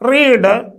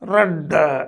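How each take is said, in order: First: The word has a long 'ee' vowel. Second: The word has a short 'eh' vowel. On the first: It is the present tense. "അപ്പം റീഡെന്ന് present നമ്മൾ വായിക്കും" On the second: It is the past tense. "പാസ്റ്റും R E D ആണ്, റെഡ് എന്നാണ്"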